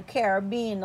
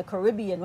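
First: Caribbean stressed on BE, "ka-ruh-BEE-un"; pronunciation variant. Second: Caribbean stressed on RIB, "kuh-RIB-ee-un"; pronunciation variant. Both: Shown as a demonstration. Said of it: "however you wanna pronounce it".

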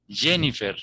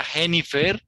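First: "Jennifer" with a voiced J; English J. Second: "Jennifer" starting with a throaty H; J of "Jennifer" as if Spanish. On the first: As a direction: model "Jennifer" as the English name. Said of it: "porque es un nombre inglés". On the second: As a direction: model "Jennifer" as "he-ni-FER". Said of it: "¿Cómo decimos en español?". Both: Shown as a demonstration.

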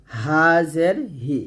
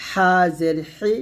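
First: Slow, light হা and হি without squeeze; thin glottal H. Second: হা and হি squeezed from mid-throat; slow, press হা and হি in the throat. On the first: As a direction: breathe হা and হি out thinly. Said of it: "শুরু থেকে পাতলা করে". (পাতলা করে হা, হি) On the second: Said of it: "মাঝখান থেকে চাপ দিয়ে". (চাপ দিয়ে হা, হি) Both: Shown as a demonstration.

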